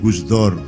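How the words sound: The last syllable has an 'o' vowel.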